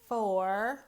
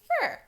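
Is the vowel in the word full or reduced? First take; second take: full; reduced. First: The vowel is a full 'or' sound. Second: The vowel is reduced to a short 'er' sound. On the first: The speaker calls it wrong. "We don't say for. We don't make that or sound" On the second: The speaker calls it right. "Instead, we say fur"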